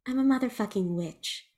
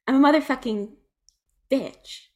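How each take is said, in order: First: Said in the usual way. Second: "motherfucking" hit higher and louder, then "bitch"; emphatic boast. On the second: Acted. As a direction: punch "motherfucking", pause, land "bitch". Acted boast, escalated second take.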